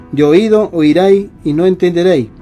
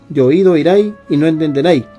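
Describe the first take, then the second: Both takes have the same delivery.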